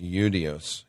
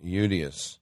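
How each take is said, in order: First: The word begins with a vowel sound. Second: The word begins with a vowel sound.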